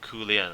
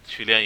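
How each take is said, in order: First: The name is pronounced the Vietnamese way. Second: The name is pronounced the Chinese way. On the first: "I think it's pronounced as Ku Lian in Vietnamese" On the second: "Qu Lian in Chinese"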